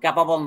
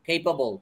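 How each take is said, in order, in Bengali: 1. প্রথম স্বরটি 'cat'-এর মতো শোনায়। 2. প্রথম স্বরটি 'cake'-এর মতো শোনায়। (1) "ক্যাপাবল না" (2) "এটা উচ্চারণ হচ্ছে কেপেবল"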